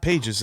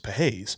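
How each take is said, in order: First: The name sounds like the English word pages. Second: The name is said Spanish-style, like PAH-hes. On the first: The speaker calls it wrong. "it's not Pages" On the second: The speaker calls it right. "it's Pages"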